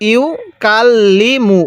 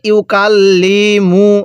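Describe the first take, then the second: First: The vowels are kept short, without stretching. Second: Every letter's vowel is stretched out long. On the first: The speaker calls it right. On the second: The speaker calls it wrong.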